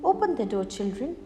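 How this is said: The wolf's voice is soft and gentle.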